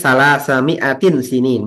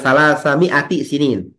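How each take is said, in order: First: An 'n' sound ends 'mi'a' before 'sinin'. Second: No 'n' sound ends 'mi'a' before 'sinin'. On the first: The following word is a specifying noun. The speaker calls it right. "karena bacanya" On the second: The two words form a possessive construction. The speaker calls it wrong.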